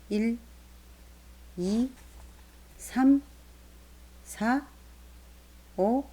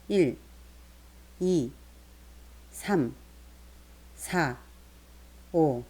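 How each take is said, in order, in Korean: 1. 질문처럼 끝에서 목소리가 올라가요. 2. 평서문처럼 끝에서 목소리가 내려가요.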